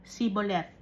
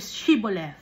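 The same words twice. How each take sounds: First: "Siboleth" with plain S, no H; "Siboleth" starting see, not shee; Ephraimite mispronunciation. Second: Said in the usual way. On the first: Acted. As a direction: botch "Siboleth" with S replacing SH. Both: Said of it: "Ay, mali".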